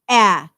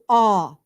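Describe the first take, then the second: First: The vowel is short and front, as in cat. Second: The vowel is open and back, as in law. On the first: "a short A is a" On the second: "they do aw"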